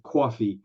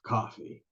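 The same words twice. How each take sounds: First: "coffee" with a rounded "aw", like cawfee; wrong regional vowel. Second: "coffee" with an open "ah", like cahfee; Texan vowel. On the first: Coach showing the giveaway slip, "coffee" said as cawfee. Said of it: "saying the word coffee instead of". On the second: Coach showing the expected Southern word, "coffee" said as cahfee. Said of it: "me doing a Southern accent". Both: Shown as a demonstration.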